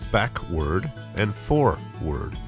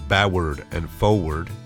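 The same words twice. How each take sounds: First: Forward is said with a clear R sound. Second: Forward is said without the R sound. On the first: The speaker calls it right. "It's backward and forward" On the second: The speaker calls it wrong. "It's not backward and forward"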